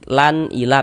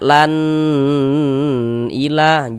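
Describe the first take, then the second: First: The sound is kept short and clear. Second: The sound is drawn out and lengthened. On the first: The speaker calls it right. "pendek gitu" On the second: The speaker calls it wrong. "jangan dipanjangkan gitu, jangan, salah"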